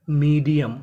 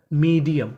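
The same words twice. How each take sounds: The two takes are said the same way.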